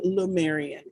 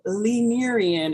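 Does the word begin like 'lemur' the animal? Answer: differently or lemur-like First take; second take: differently; lemur-like. First: The word does not begin like 'lemur'. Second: The word begins with the sound of 'lemur'. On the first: The speaker calls it wrong. "I always pronounce it wrong" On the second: The speaker calls it right. "It is lemur, like the animal"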